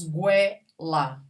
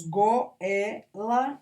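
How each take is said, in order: First: "goela" as gué-la with a w glide, gwé-la; merged into diphthong. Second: "goela" as go-é-la, o and e apart; three separate syllables. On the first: Teacher offering the other option, vowels merged. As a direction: run o and e together in "goela": gwé, la. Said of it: "ou falamos goela". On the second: Teacher asking how we say it, three syllables. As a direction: split "goela" slowly into go, é, la. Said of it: "Nós falamos goela ou falamos goela?". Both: Shown as a demonstration.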